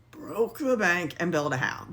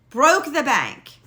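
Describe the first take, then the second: First: Said in the usual way. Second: "Broke the bank" slow, louder and higher; emphatic. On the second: Real, not acted. Telling how much the house cost, slow and emphatic. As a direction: punch "Broke the bank" slowly.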